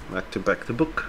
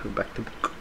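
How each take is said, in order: First: Said in the usual way. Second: A soft whisper, almost no voice; whispered aside to himself. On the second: Real, not acted. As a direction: murmur it under your breath. Repeats the reminder under his breath.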